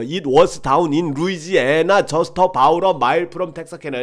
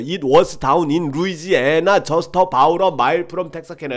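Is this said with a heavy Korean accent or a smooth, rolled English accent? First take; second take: Korean accent; Korean accent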